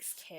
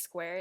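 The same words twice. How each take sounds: First: "scare" with no w, slowed, Korean style; Korean-accented square. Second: Said in the usual way. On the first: Shown as a demonstration. Showing a friend the Korean square. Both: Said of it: "it's like scare".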